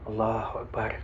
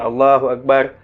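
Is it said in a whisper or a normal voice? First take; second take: whisper; normal voice. First: It is said in a half whisper. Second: It is said in a normal voice.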